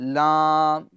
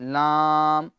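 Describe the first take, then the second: Both takes have the same delivery.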